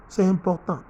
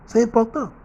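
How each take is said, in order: First: Said in the usual way. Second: C'est important hit high and loud on C'est; emphatic. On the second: Real, not acted. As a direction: drive the point home. Preacher stressing a point.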